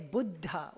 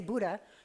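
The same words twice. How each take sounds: First: The middle consonant is held for a moment. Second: The middle consonant is short, not held. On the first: The speaker calls it right. "you say Buddha" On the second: The speaker calls it wrong. "You don't say Buddha"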